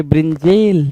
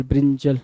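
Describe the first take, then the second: First: ब्रिंजेल with a long "jayl" ending; misspelt reading. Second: ब्रिंजल with a short "jul" ending; correct pronunciation. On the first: Teacher reads the wrong option to students, ब्रिंजेल ending in drawn-out "jayl". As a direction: stretch the end of ब्रिंजेल as brin-JAYL. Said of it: "और ये क्या कह रहा है भाई". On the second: Teacher spells out the right word, ब्रिंजल ending in short "jul". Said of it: "ब्रिंजल की spelling तो". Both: Shown as a demonstration.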